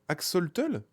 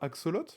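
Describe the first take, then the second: First: The word ends with a final 'l' sound. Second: The word ends without a final 'l' sound. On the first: The speaker calls it right. "Ça se dit axo... Axotl? Axolotl?" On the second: The speaker calls it wrong. "Et pas axolot? Oh, j'ai toute ma vie dit un axolot"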